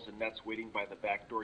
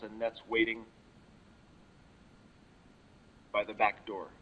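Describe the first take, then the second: First: The phrase runs on without a pause. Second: There is a long pause after 'waiting'. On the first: The speaker calls it right. "That time I blasted right through" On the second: The speaker calls it wrong. "obviously wrong because of the long, exaggerated pause after waiting"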